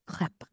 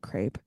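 First: It is said with a French pronunciation. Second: It is said with an American pronunciation.

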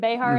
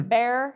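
First: The name is said with two syllables. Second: The name is said with one syllable. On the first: "if you try to say Behar" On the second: "with a Texas accent, if you try to say Behar, you're really just going to say bear"

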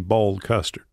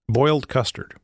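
First: It is said in a Tennessee accent. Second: It is said in the speaker's plain accent.

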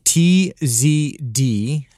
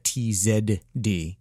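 First: It is said in a plain American way. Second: It is said the Canadian way, with 'zed'.

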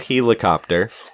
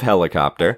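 First: The word is said in an unusual, strange way. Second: The word is said in the ordinary way. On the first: This is how the narrator oddly said it. "he says helicopter instead of" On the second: This is the usual way to say it. "instead of helicopter"

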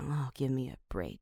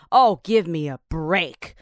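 First: It is said in a despairing, breaking-down way. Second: It is shouted loudly toward the sky.

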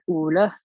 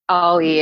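First: It starts with an 'oo' sound, like 'Ulla'. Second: It is said the English way, like 'Ollie'. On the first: The speaker calls it right. "but it's like Ulla" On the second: The speaker calls it wrong. "You say Ollie in English"

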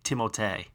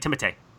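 First: The name is said slowly. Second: The name is said quickly.

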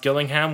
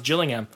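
First: The name starts with a hard G sound. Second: The name starts with a J sound. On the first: The speaker calls it wrong. "when he was actually completely incorrect" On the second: The speaker calls it right. "It's pronounced Gillingham"

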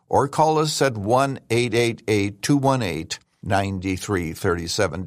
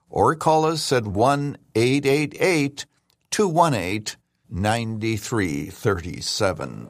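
First: The number is said quickly. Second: The number is said more slowly.

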